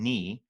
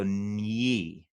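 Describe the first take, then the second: First: "ni" with a plain N; the wrong way: "ni" without a Y glide. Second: "nyi" slow, with a Y after the N; palatal nyi. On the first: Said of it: "So instead of going ni". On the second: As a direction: glide the N into Y in "nyi". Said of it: "I go nyi". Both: Shown as a demonstration.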